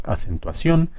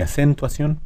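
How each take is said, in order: First: Acentuación stressed on final CIÓN; correct final stress. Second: Acentuación stressed too early, pitched up, ción weak; wrong early stress. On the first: Teacher giving the correct form, acentuación with stressed CIÓN. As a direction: land the weight of acentuación on CIÓN. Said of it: "decimos acentuación". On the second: Teacher's second wrong example, acentuación with early stress. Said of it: "no decimos acentuación ni". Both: Shown as a demonstration.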